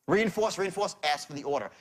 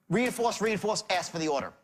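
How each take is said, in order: The two takes are said the same way.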